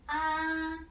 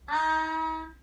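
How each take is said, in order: The two takes are said the same way.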